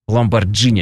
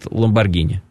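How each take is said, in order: First: The middle consonant is a soft j sound. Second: The middle consonant is a hard g sound. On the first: "люди, привыкшие читать J как J" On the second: "а итальянцы, они говорят Ламборгини"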